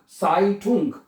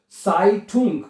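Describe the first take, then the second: No difference in how they are said.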